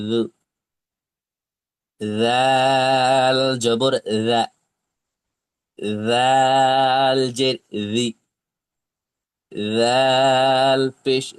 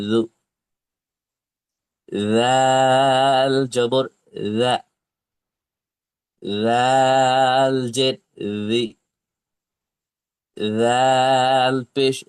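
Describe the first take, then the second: Both takes have the same delivery.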